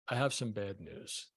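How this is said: It is said softly, falling, like a late-night DJ.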